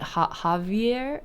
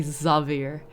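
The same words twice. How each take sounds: First: Javier said with an initial H sound; H pronunciation. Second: Xavier said with an initial Z sound; Z pronunciation. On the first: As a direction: begin Javier with a breathy H, as in "hat". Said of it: "or is it actually Xavier". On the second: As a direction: begin Xavier with a buzzing Z, as in "zoo". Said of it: "it is a Z sound". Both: Shown as a demonstration.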